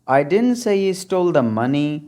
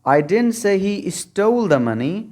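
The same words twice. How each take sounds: First: The word money carries the stress. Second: The word stole carries the stress. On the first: He stole something other than money. "अगर last word पर आप stress डालेंगे" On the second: He took the money but did not steal it. "अगर stall को आप stressed बना देंगे"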